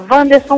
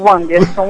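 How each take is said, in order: First: The name begins with a V sound. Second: The name begins with a W sound. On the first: "Wanderson com W com som de V" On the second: "Anderson com som de U"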